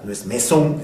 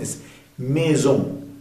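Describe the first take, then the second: First: The middle consonant is a hissing s sound. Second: The middle consonant is a buzzing z sound. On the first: The speaker calls it wrong. "No es" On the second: The speaker calls it right. "esa S está entre dos vocales"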